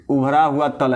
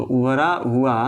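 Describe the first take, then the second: First: Said in the usual way. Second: उभरा हुआ said slowly, word by word, for note-taking; slow dictation of उभरा हुआ. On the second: Shown as a demonstration. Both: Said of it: "ऐसे लिख लीजिए इसको".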